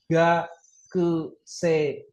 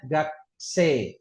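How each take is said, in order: First: Gakusei very slowly as "ga, ku, se, i"; syllable by syllable. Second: Gakse as two beats, "gak-see", long e; read with silent u. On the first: Teacher spelling out a vocabulary word, syllable by syllable. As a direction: separate every syllable of gakusei, sounding u and i. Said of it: "ada kata". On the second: Teacher giving the word's real reading, silent u. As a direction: drop the u and lengthen the e in gakse. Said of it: "Ini dibacanya gakse". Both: Shown as a demonstration.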